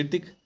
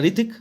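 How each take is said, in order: First: ऋतिक as "hir-tik"; spelling-based misreading. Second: ऋतिक with silent h, "ri-tik"; usual Hrithik pronunciation. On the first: Teacher imitating uninformed readers, misread ऋतिक as hirtik. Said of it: "नहीं जानते तो क्या पढ़ेंगे". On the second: Teacher showing how students read the name, h-less ऋतिक. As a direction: start ऋतिक straight on r. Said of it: "आप पढ़ते हैं". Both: Shown as a demonstration.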